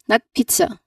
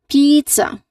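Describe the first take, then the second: First: The first vowel is a short E. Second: The first vowel is a long E. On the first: The speaker calls it wrong. "That's too short" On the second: The speaker calls it right. "Long E sound"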